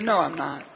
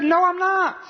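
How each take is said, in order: First: Understated, low-key denial. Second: High-pitched, emphatic protest; retold indignant denial; insistent denial. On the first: Retold or imitated. Peter's first denial, retold. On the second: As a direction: deny it harder, pitch jumping right up. Peter's second, stronger denial, retold.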